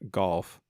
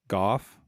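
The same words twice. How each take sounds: First: The word is said with an audible L. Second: The word is said without any L sound.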